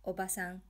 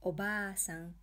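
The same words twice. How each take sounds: First: "ba" in Oba-san kept short; brief single-beat "a" after the b in Oba-san; short vowel. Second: "baa" in Obaa-san held long; long vowel. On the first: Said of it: "If you say". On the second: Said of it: "Pronouncing the long vowels correctly". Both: Shown as a demonstration.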